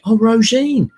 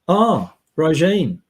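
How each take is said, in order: First: It is said with enthusiasm. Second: It is said in a bored way.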